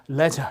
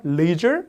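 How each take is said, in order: First: Leisure said LEH-zhuh, short e; British pronunciation. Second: Leisure said LEE-zher, long ee; American pronunciation. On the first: Teacher showing learners British leisure, r-less pronunciation. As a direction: say leisure with the final r dropped. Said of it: "알 발음 빠져서 영국식으로는". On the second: Teacher contrasting US and UK leisure, American pronunciation. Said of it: "미국식으로 하면 좀 발음이". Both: Shown as a demonstration.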